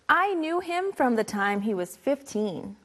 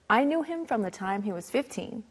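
First: It is said at a normal speed. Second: It is said a little faster.

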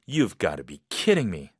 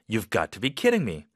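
First: It sounds solemn, with a lowered tone. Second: It sounds excited and a little doubtful.

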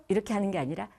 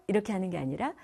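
The two takes are said the same way.

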